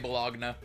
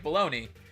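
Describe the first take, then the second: First: It is said following its spelling. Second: It is said the usual way, like 'baloney'. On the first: "I just always say Bologna because that's how it's spelled" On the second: "why is it pronounced that way?"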